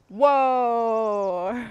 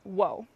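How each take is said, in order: First: The word is drawn out long. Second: The word is said short and plain.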